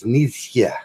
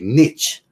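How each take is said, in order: First: The name is said in its original local way. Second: The name is said the French way. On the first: "say it the way he said it" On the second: "if you say it in France, it'll be niche"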